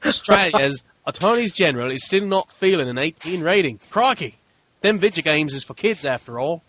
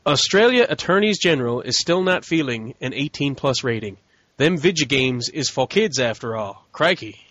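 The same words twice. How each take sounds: First: A broader mock Australian accent with a laugh; hammed-up Aussie accent. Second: Put-on a barely-there Australian accent, half-hearted; bad Aussie accent. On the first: Retrying the Australian headline, bigger mock Australian accent. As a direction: lean harder into the Australian twang. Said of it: "How's that? That better?". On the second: Reading Australian news, faint mock Australian accent. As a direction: toss in a weak Australian twang. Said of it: "That was the worst Aussie accent ever".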